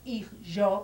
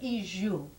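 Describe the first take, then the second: First: The final vowel is pronounced as o. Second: The final vowel is pronounced as u. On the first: This is how it is said in standard Spanish. "so it's not ijo" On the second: This is how it is said in the Ladino of Rhodes. "We in, from Rhodes pronounce that O, u"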